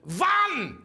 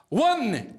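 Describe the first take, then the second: First: It is said in a German accent. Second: It is said in a Scottish accent. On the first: "is the German accent" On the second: "the accent I like to use is the Scottish accent"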